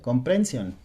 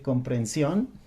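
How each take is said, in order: First: The stress falls on a shifted syllable. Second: The stress falls on the usual syllable. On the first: The speaker calls it wrong. "cambiaba los acentos de una palabra" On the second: The speaker calls it right. "en vez de decir comprensión"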